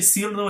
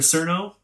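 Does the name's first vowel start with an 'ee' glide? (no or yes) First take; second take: yes; no. First: The first vowel begins with an 'ee' glide. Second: The first vowel has no 'ee' glide. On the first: The speaker calls it right. "So imagine like you're saying the word seal and then put it like Cierno" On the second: The speaker calls it wrong. "instead of Cerno"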